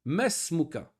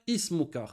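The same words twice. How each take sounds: First: Mesmuka with the hamza dropped, ma running straight into smuka; the correct form: mesmuka, no i sound; right mesmuka. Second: Ismuka with the opening hamza sounded, the wrong way; the mistake: pronounce the i of ismuka. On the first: Teacher showing students the right mesmuka, hamza silent. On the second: Teacher showing students the wrong ismuka, hamza pronounced. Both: Shown as a demonstration.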